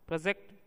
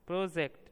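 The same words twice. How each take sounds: First: The stress is on the last syllable. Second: The stress is on the first syllable. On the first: It is a verb. "क्रिया है" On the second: It is a noun. "यानी संज्ञा है"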